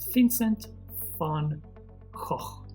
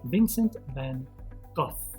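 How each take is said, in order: First: The name is said with a Dutch pronunciation. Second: The name is said the English way, ending in F. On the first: "the real way to pronounce his name is the Dutch way" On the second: "They say the F sound"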